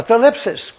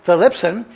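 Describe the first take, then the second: First: "thalipsis" said as tha-LIP-sis, ending in -sis; "thalipsis" pronounced with a final -sis; alternate form. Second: "thalipsin" said as tha-LIP-sin; "thalipsin" pronounced tha-LIP-sin; Greek word pronounced. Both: Shown as a demonstration. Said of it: "T H L I P S I N".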